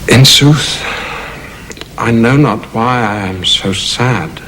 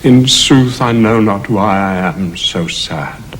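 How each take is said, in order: First: It is spoken thoughtfully, as if explaining himself. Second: It is spoken in a sad tone.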